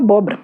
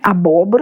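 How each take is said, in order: First: The word is said without its first syllable. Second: The whole word is said with its first syllable. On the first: "Você perde um pedaço da palavra" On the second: "a gente fala bonitinho"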